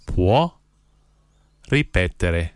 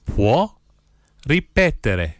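First: Each word set apart by long pauses; one word, pause, next word; slow, word by word. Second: Said in the usual way. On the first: Shown as a demonstration. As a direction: spell it out slowly for learners to repeat. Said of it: "then I'll say one word at a time slowly". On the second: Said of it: "I'll say the phrase".

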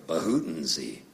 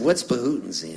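First: Low, soft coughed-out nonsense word; imitated cough-word. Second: Said in the usual way. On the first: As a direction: mimic dad turning a cough into a word. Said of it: "my dad used to cough". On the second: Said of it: "And I said".

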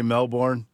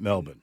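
First: "Melbourne" said MEL-born; full pronunciation of Melbourne. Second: "Melbourne" said MEL-bin; local pronunciation of Melbourne. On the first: Shown as a demonstration. Co-host giving own way of saying the city, "Melbourne" as MEL-born. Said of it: "but I say Melbourne". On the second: Retold or imitated. Co-host reporting last night's broadcast, "Melbourne" as MEL-bin. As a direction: reduce the end of "Melbourne" to a short bin. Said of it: "they were saying it Melbourne".

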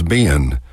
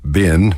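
First: Ben split into two syllables, "bey-un"; Texas diphthong. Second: Said in the usual way. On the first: Shown as a demonstration. Showing listeners the Texas dialect, two-syllable ben. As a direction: stretch ben out Texas style. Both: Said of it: "convert one-syllable words to two-syllable words".

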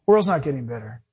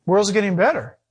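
First: Lower, firm, "not" stressed; answering the naive claim with a firm correction. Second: Lightly mocking repeat of the naive claim; echoing the naive claim he heard last week, lightly mocking; mock quote. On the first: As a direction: put it right, flat and sure. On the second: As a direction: toss it off like a silly idea. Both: Shown as a demonstration.

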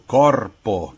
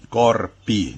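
First: Corpo with a full closing O, not U; Italian final O. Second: Corpi with a clear closing I; Italian final I. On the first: Professor gives an Italian singular example, Italian final O. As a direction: land clearly on the O ending of corpo. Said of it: "se a palavra termina em O". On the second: Professor shows the Italian plural, Italian final I. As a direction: sound the plural I ending of corpi. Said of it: "o plural é feito com I". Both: Shown as a demonstration.

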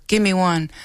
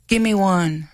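First: "Give me one." repeated as gimiwan, stress on first syllable, falling; Ojibwe word. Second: "Give me one." said as gimiwan, stress on first syllable, falling; Ojibwe word. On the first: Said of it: "Easy to remember". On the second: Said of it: "if it was raining out, you would say". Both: Shown as a demonstration.

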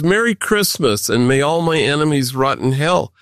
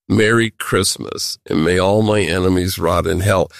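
First: Said in the usual way. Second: A hint of spiteful relish in the greeting; mock sinister greeting. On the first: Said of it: "that says". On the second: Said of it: "sent that message out".

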